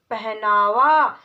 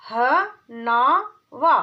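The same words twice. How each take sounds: First: पहनावा said whole, slow and clear; whole word. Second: पहनावा stretched very slowly; syllable by syllable. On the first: Teacher blending पहनावा. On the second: Teacher sounding out पहनावा. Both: Shown as a demonstration. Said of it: "चार वर्णों वाले शब्द".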